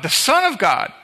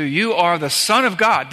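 First: "the" hit high and hard, the article stressed. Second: Said in the usual way. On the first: Shown as a demonstration. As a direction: lean on "the", not "a". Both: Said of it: "not a son of God".

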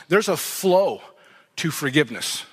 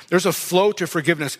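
First: "flow" stretched out, voice dropping on "to forgiveness"; slow emphatic statement. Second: Said in the usual way. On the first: Shown as a demonstration.

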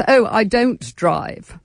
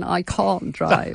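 First: Slow, haughty, nose in the air; snooty voice. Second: Said in the usual way. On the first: Retold or imitated. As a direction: say it like a snob, drawn out. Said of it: "in quite a snooty voice". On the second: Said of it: "rather than".

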